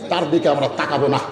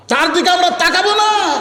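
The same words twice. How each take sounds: First: Said in the usual way. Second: Very high, chanted refusal; high-pitched sermon call, long final syllable; raised preacher's cry. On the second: Retold or imitated. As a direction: lift the whole line high, stretch the last word. Same line repeated, raised for crowd.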